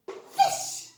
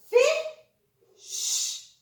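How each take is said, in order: First: Said in the usual way. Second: "Fish" split into "fi", pause, long "sh"; sounded out. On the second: Shown as a demonstration. Teacher helping children read, "Fish" broken into sounds. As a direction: sound out "Fish" in two parts, high. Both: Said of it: "can you help me read the words".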